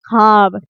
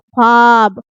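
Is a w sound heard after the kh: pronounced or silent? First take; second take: silent; pronounced. First: The w sound after kh is silent. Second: The w sound after kh is pronounced. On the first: The speaker calls it right. "पढ़ने में बिल्कुल खामोश खामोश हो जाता है" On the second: The speaker calls it wrong. "अब तक हम लोग क्या पढ़ते थे इसको?"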